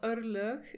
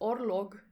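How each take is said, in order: First: The word has its Icelandic vowel sounds. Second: The word has plain English vowel sounds. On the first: "in Icelandic" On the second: "but he says"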